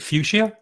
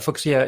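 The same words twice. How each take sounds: First: The word has an English pronunciation. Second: The word has a German pronunciation. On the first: "in English we we pronounce it fuchsia" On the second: "fuchsia in, in in German"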